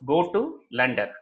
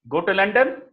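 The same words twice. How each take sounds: First: The pitch stays level, like a statement. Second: The pitch rises at the end. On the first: It is a plain statement. "neutral inflection, just as a statement" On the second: It is a question. "Upward inflection is a question"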